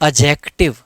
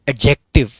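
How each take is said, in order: First: The d sound is dropped completely. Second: The d sound is said very lightly. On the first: The speaker calls it wrong. "आप इसको अजेक्टिव मत पढ़ लेना" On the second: The speaker calls it right. "इसको पढ़ना है एडजेक्टिव, यानी कि ड का बहुत हल्का सा साउंड आता है"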